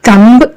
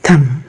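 First: The final b sound is pronounced. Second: The final b sound is silent. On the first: The speaker calls it wrong. "തമ്പ് എന്ന് പറയരുത്" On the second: The speaker calls it right. "ബി അവിടെ silent ആണ്"

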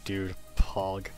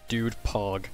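First: It sounds mocking and heavily sarcastic. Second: It sounds genuinely impressed and sincere. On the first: The speaker is not actually impressed. "That's extremely sarcastic" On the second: The speaker really is impressed. "Hits different"

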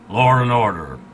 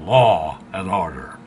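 First: An R sound is added after 'law'. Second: No R sound is added after 'law'. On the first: This is the New England way of saying it. "I still say law and order" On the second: This is the usual way of saying it. "instead of law and order"

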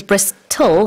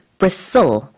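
First: The T sound is clearly pronounced. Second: The T sound is silent. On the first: The speaker calls it wrong. "you don't say bristle" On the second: The speaker calls it right. "it's bristle"

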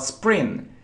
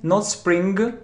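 First: It ends on the nasal with no hard g. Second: A hard g sound is released after the nasal. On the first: The speaker calls it right. "but spring" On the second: The speaker calls it wrong.

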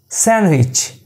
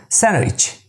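Both takes have the same delivery.

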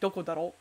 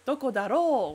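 First: The final o vowel is cut short. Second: The final o vowel is held long. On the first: The speaker sounds aggressively masculine. "he doesn't say doko daro" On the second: The speaker sounds polite and neutral. "with the long daro"

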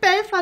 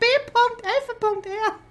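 First: It is said smoothly as a single word. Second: It is said in separate parts with breaks. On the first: The speaker calls it wrong. "das heißt nicht Belfer" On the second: The speaker calls it right. "das heißt B.Elfe.R"

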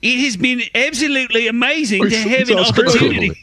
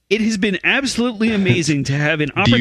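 First: It is read in a put-on, artsy voice. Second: It is read in an ordinary, unaffected voice. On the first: The speaker calls it right. "I'll work on this" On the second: The speaker calls it wrong. "I don't think it sounds like you, though"

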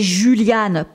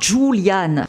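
First: The name is said with a French pronunciation. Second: The name is said with an American pronunciation. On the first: The speaker calls it right. "C'est Julianne" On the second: The speaker calls it wrong. "à l'américaine"

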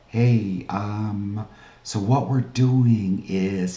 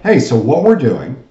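First: It sounds doubtful, not expecting agreement. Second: It sounds confident, expecting agreement. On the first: The caller does not expect the listener to agree. The speaker calls it wrong. "You're not talking to them like" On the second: The caller assumes the listener will say yes. The speaker calls it right. "you're using a yes voice"

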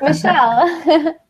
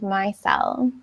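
First: The first vowel is not a long I sound. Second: The first vowel is a long I sound. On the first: The speaker calls it wrong. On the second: The speaker calls it right. "the I is pronounced like with a long I sound"

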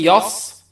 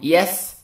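First: The s sound is heavy and emphatic. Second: The s sound is light and hissing. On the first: The speaker calls it wrong. "You're changing the scene into صاد" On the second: The speaker calls it right. "the scene has صفير and hams"

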